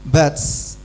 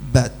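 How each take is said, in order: First: The final t ends with a strong s sound. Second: The final t ends with a light hiss. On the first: The speaker calls it wrong. "nggak nyambung... Desis kayak gitu, itu miliknya sin" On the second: The speaker calls it right.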